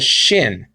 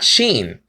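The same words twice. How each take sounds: First: "shin" with a short i; short-vowel pronunciation. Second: "sheen" with a long ee; long-vowel pronunciation. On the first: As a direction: say "shin" to rhyme with "pin". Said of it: "he pronounced this letter as shin". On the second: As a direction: say "sheen" to rhyme with "green". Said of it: "not sheen". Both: Shown as a demonstration.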